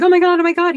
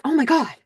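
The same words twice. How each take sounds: First: Higher, louder ecstatic Oh my God, oh my God; overjoyed. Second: Mildly voiced happy Oh my God, a little higher; a touch of joyful disbelief; happy gasp. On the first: Retold or imitated. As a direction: burst out with giddy joy. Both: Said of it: "He's so happy".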